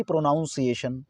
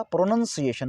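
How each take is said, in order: First: "प्रोनाउंसिएशन" with 'noun' in the middle; mispronunciation. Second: "प्रोनाउंसिएशन" with a short 'nun' in the middle; correct pronunciation. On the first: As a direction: say "प्रोनाउंसिएशन" wrongly as pro-NOUN-see-ay-shun. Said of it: "ना कि". ("प्रोनाउंसिएशन" के बीच में 'नाउन' बोलें) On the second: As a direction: say "प्रोनाउंसिएशन" as pro-nun-see-AY-shun. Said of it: "तो right क्या होगा". ("प्रोनाउंसिएशन" में 'नाउन' नहीं, छोटा 'नन' बोलें) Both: Shown as a demonstration.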